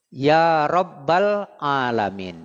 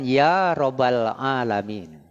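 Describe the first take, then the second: First: The b sound is held long and doubled. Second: The b sound is short and single. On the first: The speaker calls it right. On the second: The speaker calls it wrong.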